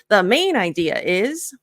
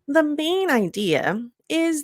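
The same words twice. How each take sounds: First: The phrase is said quickly, without slowing. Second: The phrase is said slowly and drawn out. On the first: The speaker calls it wrong. "instead of" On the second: The speaker calls it right. "just slow it down"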